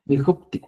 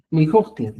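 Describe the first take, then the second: First: "Mijopti" with a p before the t; "Mijopti", closing the lips on the middle syllable; standardized P form. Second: "Mijotin" with a throaty k before the t; "Mijotin", closing the middle syllable at the back of the mouth; older Q form. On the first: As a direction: say "Mijopti" as mi-HOP-ti. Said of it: "la Q se cambia con la P". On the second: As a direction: say "Mijotin" as mi-HOK-tin. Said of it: "se escribía antes". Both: Shown as a demonstration.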